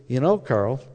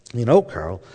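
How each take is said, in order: First: Said in the usual way. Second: A touch of Dallas twang in a retold quote; Dallas accent. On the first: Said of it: "she says this in her". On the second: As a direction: imitate a wife's deep Dallas accent. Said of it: "in her deep Dallas accent".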